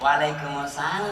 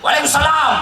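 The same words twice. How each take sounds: First: It is said softly in a drawn-out, swaying voice. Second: It is said in a firm, clipped, businesslike voice.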